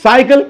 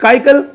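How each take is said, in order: First: "సైకిల్" as SAI-kil; the correct s-then-k reading "సైకిల్"; soft C first. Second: "కైకల్" as KAI-kul; k for both C's in "కైకల్"; the mistaken all-k reading "కైకల్"; hard C. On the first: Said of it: "It's a sa sound". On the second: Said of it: "if we use it as ka sound". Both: Shown as a demonstration.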